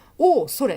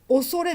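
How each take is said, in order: First: The first vowel is held long. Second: The first vowel is said short. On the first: The speaker calls it wrong. "「おおそれ」って読まないでくださいね" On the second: The speaker calls it right. "恐れでいっこですからね"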